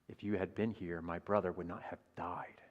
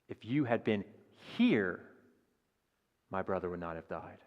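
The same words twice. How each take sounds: First: The stress is on "died". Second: The stress is on "here".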